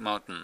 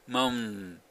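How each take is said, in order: First: The T is held silently and released through the nose. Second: The T is dropped entirely, leaving only moun. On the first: The speaker calls it right. "舌先がつけたまんまで、後ろの鼻に通る部分を通してあげると" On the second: The speaker calls it wrong. "もしT を一切やらなかったら"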